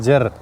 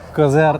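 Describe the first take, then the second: First: The name starts directly with a z sound. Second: The name starts with a k sound before z. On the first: This is how the locals say it. The speaker calls it right. "उस क्यू को साइलेंट करके ये बोलता है जर" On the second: This is how the visitors say it. The speaker calls it wrong. "हम हमारे मुंह से वो कजर बोलता है"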